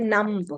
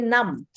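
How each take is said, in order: First: A B sound is heard at the end. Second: No B sound is heard at the end. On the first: The speaker calls it wrong. "We don't say numb" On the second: The speaker calls it right. "we say numb"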